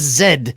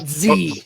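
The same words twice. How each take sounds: First: The letter is said the British way. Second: The letter is said the American way. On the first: "Over in your part of the world, that is Z" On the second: "not Z"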